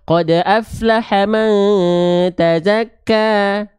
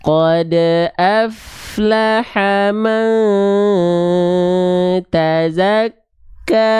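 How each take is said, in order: First: It is recited fast. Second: It is recited slowly.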